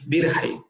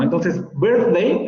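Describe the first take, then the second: First: Birthday with a rough h for th; Scottish birthday. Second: Slow birthday with th; birthday with the tongue between teeth; standard birthday. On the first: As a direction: say birthday with a breathy h, birhday. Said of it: "variante escocesa". (birthday escocés con h) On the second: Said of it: "el fonema interdental". (birthday lento con th) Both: Shown as a demonstration.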